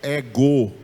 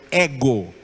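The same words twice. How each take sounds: First: The stress is on the last syllable. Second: The stress is on the first syllable. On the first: The speaker calls it wrong. "ou ego" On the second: The speaker calls it right. "A tonicidade ficou no épsilon"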